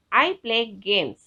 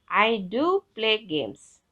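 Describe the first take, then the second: First: Said in the usual way. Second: I DO play games, slow with do stressed. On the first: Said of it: "For example". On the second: Shown as a demonstration. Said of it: "where you can use do".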